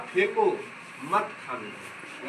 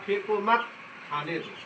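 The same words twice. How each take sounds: First: फेंको, then a break before a low, slow मत खाने दो; pause after फेंको. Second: फेंको मत as one unit, break, then खाने दो; pause after मत. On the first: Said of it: "यहाँ पर इसको, इसमें अगर कोमा लग गया". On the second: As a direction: join मत to फेंको, pause, drop softer on खाने दो. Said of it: "अगर यहाँ पर कोमा लग गया". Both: Shown as a demonstration.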